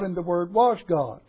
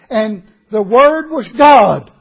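First: The word God gets no special emphasis. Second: The word God is strongly emphasized.

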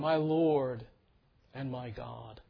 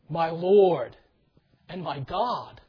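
First: It is said calmly, like a polished stage line. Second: It is said with strong, heartfelt emotion. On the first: It is a recited line without deep personal feeling. The speaker calls it wrong. "graciously uttered the next line" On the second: It is an overwhelmed, deeply felt confession. The speaker calls it right. "with a lot more pathos in his voice. He said it with a lot more feeling"

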